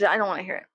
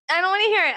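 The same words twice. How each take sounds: First: Said in the usual way. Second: Higher, louder "I don't wanna hear it"; louder repeat. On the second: Real, not acted. Vlogger shuts out creepy commenters, louder the second time. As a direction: push them away with it.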